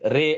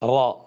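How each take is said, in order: First: The letter name ends in an 'ay' vowel. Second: The letter name ends in an open 'ah' vowel. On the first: The speaker calls it wrong. "ரே அப்படிங்கிற சொல்ற ஸ்டைலும் இருக்கு" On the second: The speaker calls it right. "ரா அப்படின்னு சொல்லுவோம்"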